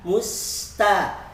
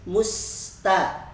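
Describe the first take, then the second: No difference in how they are said.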